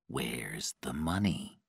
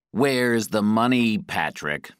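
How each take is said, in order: First: Low, soft and slow; calm questioning. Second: Louder, higher-pitched demand; forceful demand. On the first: Guy waits for Patrick to recover, asks calmly. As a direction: ask calmly, with quiet control. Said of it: "Then he asked calmly". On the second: Guy interrogates Patrick about the money, forceful demand. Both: A narrator's reading.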